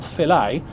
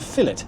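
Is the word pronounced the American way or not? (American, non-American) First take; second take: American; non-American. First: The word is said the American way. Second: The word is said in a non-American way.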